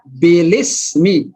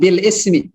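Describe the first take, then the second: First: The initial vowel is silent, linking bil to smi. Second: The initial vowel of ismi is pronounced separately. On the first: The speaker calls it right. "bacanya bil ismi, begitu. ... hamzah wasal ditulis tapi tidak dibaca" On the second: The speaker calls it wrong. "Bukan bil ismi"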